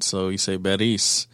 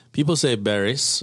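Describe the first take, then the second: First: Beris with an open e sound. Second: Barris said the common way, plain flat a. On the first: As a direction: say Beris, e not a. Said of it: "accent I in it". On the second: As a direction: Barris with a plain English tap r. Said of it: "that's the obvious thing to say". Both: Shown as a demonstration.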